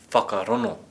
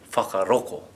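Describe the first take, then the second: First: The 'ng' sound is replaced by an 'n'. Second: The 'ng' sound is replaced by a 'k'. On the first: "If we were from Tūhoe" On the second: "And if we were from Kaitahu or Ngaitahu?"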